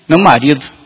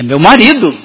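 First: It is said with a disappointed tone. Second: It is said with a proud tone. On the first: The relationship is not going well. "Talvez o tom seja mais do tipo" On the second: The woman is happy with her husband. "E você sente orgulho"

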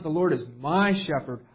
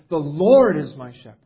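First: The stress falls on the word my. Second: The stress falls on the word Lord. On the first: The psalm is about what the reader receives. The speaker calls it wrong. "So it's not" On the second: The psalm is about God himself. The speaker calls it right. "He's the point of it. And it's really how we should read it"

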